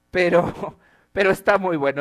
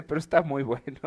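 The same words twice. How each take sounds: First: Riendo. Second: Said in the usual way. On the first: Real, not acted. Laughing while judging the meme.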